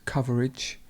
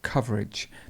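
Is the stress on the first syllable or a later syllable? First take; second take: later syllable; first syllable. First: The stress is not on the first syllable. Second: The stress is on the first syllable. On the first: The speaker calls it wrong. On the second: The speaker calls it right.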